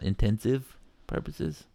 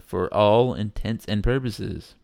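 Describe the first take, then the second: First: Intensive purposes, a slow mock of the misheard phrase; mocking the wrong version. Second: Intents and purposes, each word clear; correct saying. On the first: Podcaster mocks people who say it wrong. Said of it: "not intensive purposes". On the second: Correcting the phrase for listeners. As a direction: say intents and purposes plainly, no blur. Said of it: "by the way, that's how it's said". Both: Shown as a demonstration.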